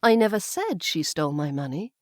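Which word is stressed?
said. The stress falls on the word said. It was only hinted or implied. "maybe I hinted or implied it, but I didn't say it outright"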